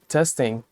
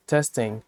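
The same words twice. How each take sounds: The two takes are said the same way.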